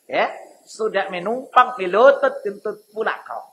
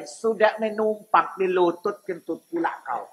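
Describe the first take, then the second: First: Medan dialect. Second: Lower, softer Medan accent, teasing; Medan dialect. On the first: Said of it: "Kalau pakai bahasanya silalahi begitu". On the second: Preacher mocks a freeloader in Medan accent. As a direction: drop into a Medan accent and scold. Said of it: "Ini kalau pakai dialek Medan". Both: Shown as a demonstration.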